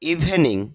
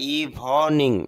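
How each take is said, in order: First: A vowel is heard right after the v. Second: No vowel is heard right after the v.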